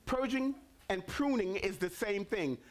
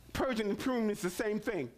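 First: "pruning" hit hardest, a long fall after; stress on pruning. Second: "Purging" hit hardest, then falling; "Purging" first and strongest; stress on purging. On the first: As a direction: lean on "pruning". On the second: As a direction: lean on "Purging". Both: Shown as a demonstration. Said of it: "repeated with new stress".

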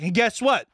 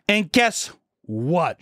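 First: High, prompting teacher voice; imitating teacher. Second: Very slow, drawn-out GUESS WHAT, pitched up; imitating teacher. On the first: Health teacher announcing more to the class, high mock instructive voice. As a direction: pitch it up as a classroom lead-in. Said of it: "And she's like". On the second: Health teacher teasing the next revelation, very slow mock instructive voice. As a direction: stretch "guess what" into a long announcement. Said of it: "She says that".

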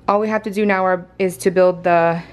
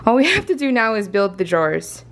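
First: Gasping between phrases; winded, catching breath mid-sentence. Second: Said in the usual way. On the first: Real, not acted. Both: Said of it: "hold on, I need to catch my breath".

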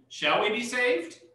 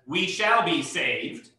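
First: "Shall we be saved?" with the voice rising on saved; read as a question. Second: Falling tune, slow and settled on saved; read as a statement. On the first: Bible teacher reading the verse as a question, rising tune. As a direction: ask it, lifting "saved" up at the end. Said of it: "a question". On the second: Bible teacher reading the verse as a plain statement, falling tune. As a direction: state "we shall be saved" flatly, voice dropping at the end. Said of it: "so again, a statement". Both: Shown as a demonstration.

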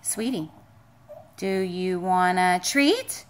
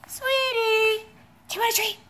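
First: Low drawn-out offer. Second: Higher, quick sing-song offer. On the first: Owner offering the dog a treat, low and slow. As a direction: lower and slow, stretching treat up at the end. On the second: Owner offering the dog a treat again, high baby talk. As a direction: perk it up like talking to a puppy. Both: Real, not acted.

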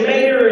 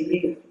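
First: "mayor" said as two clear syllables, higher and louder; standard mayor. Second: "mayor" clipped short and soft, like "mare"; own mayor. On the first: Speaker contrasts how the other kid says "mayor". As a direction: say "mayor" fully, the other kid's way. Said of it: "that kid gets to say". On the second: Speaker shows her own banned way to say "mayor". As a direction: say "mayor" as one quick syllable, her own way. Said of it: "I can't say". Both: Shown as a demonstration.

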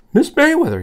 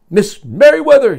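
First: High, raised-voice questioning call; asking. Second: Loud, high call down the hall. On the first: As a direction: ask for her as if searching. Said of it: "he asked". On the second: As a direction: call her name as you hurry along. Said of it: "he called out as he walked". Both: Acted.

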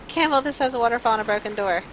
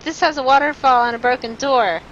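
First: Said in the usual way. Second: Loud, higher announcement; calling out. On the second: Real, not acted. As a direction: call it out to get their attention. Calls out to advisers.

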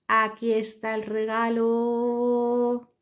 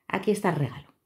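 First: Very slow, high reveal; slow dramatic reveal. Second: Said in the usual way. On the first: Shown as a demonstration. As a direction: draw it out like a magic trick.

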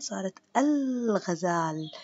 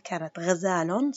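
First: صارت الغزال with the l of ال clearly said, slowly; before and after. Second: Put-on كانت غزال with the old ending, غزالٌ with tanween, slowly; before and after. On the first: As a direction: stretch الغزال and sound the l. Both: Shown as a demonstration. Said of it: "صارت غ".

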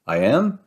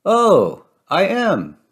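First: "I am" as a puzzled question, rising at the end; unsure "I am", lifting on "am". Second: High-pitched "oh" of discovery, then falling; delighted storybook realization, high then settling; dawning realization. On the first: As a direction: ask "I am" with an upward lilt. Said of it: "asks Cuckoo Loca". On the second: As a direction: realize it aloud, pitched well up. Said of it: "staring at herself". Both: A narrator's reading.

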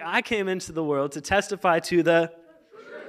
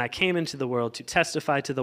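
First: Animated, leading up to the cue; rousing re-read. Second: Said in the usual way. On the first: Shown as a demonstration. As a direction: build it up so the crowd joins in. Restarts to get congregation excited.

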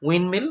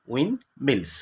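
First: Said in the usual way. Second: "উইন্ডমিলস" split as উইন্ড, gap, মিলস; teacher sounding out "উইন্ডমিলস" in two parts; broken into syllables. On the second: Shown as a demonstration. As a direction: pause in the middle of "উইন্ডমিলস". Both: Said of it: "ভাঙলে কি হবে?".

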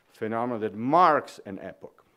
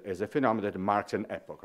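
First: "marks" punched louder with a falling tune; stress on "marks". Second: Said in the usual way. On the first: Shown as a demonstration. Lecturer insisting it marks an epoch, stress on "marks". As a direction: land hard on "marks", let "an epoch" fall. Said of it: "not just one phenomenon among many, but is the". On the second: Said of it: "not just one phenomenon among many".

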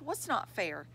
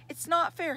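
First: Said in the usual way. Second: High-pitched yelled protest; yelling. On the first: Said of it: "she asked". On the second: A narrator's reading. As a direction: yell it like an upset child, moderately loud. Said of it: "he yelled".

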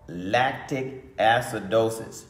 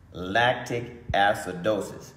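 Both takes have the same delivery.

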